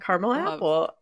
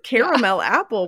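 First: Caramel is said with two syllables. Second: Caramel is said with three syllables. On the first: The speaker calls it right. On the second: The speaker calls it wrong.

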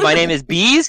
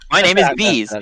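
First: The voice rises at the end. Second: The voice falls at the end. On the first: It sounds like a question. The speaker calls it wrong. "You know how you say it where you're like, it's like a question? Stop that" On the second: It is stated as a plain fact. The speaker calls it right. "You just state it. Just say ... like a normal person"

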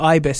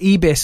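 First: The name is said with a British pronunciation. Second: The name is said with a French pronunciation. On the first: "as you Brits would call it" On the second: "But I'm French"

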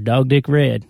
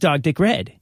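First: It is said with a slow southern drawl. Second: It is said in a plain, non-drawling voice. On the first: The speaker calls it right. "You have the drawl" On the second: The speaker calls it wrong. "You don't say, this is dog dick red"

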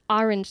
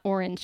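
First: It is said with a New Jersey accent. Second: It is said with a Californian accent. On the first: The speaker calls it right. "my mom's from New Jersey... she would always be like, no, it's orange" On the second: The speaker calls it wrong. "not orange"

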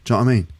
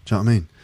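Both takes have the same delivery.

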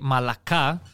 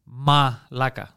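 First: The stress is on the last syllable. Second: The stress is on the second syllable. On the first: It means soft. "But if you say malaka, malaka means soft" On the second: It is the common insult word. "It's malaka"

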